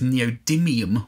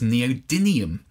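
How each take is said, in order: First: The consonant before the ending is an M sound. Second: The consonant before the ending is an N sound. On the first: The speaker calls it right. "neodymium with an M" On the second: The speaker calls it wrong. "pronunciation of the magnet incorrectly"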